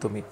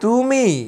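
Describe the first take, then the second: First: The word is said in a plain, neutral way. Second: The word is said with a dismissive, scornful tone. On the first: Simply addressing the person. "Simple তুমি" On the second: Belittling the person or what they did. "তাচ্ছিল্য করছি"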